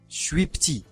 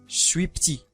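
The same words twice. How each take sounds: First: It is clipped, with vowels dropped. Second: The same.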